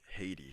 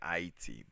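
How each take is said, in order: First: Haiti is said in the American way. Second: Haiti is said in a non-American way. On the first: This is how people in America say it. "people pronounce it Haiti here in America" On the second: This is how the speaker personally says it. "I say Haiti"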